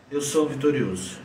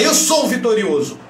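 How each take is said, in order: First: Low, subdued, beaten-down delivery; defeated self-affirmation. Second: Raised, emphatic victorious declaration; forceful self-affirmation. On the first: Coach showing an affirmation in a defeated posture, low and deflated. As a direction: say it softly from a slumped, defeated posture. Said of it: "você fala assim pra você mesmo". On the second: Coach showing a victorious affirmation with head up, forceful. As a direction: declare it with your head held high. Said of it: "Muda o tom da tua voz". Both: Shown as a demonstration.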